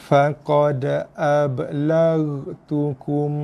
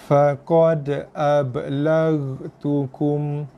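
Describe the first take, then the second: Both takes have the same delivery.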